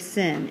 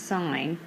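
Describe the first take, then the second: First: The word sounds like 'sin' with a short vowel. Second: The word sounds like 'sign' with a long vowel. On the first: The speaker calls it wrong. "don't say sin" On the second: The speaker calls it right. "it's sign"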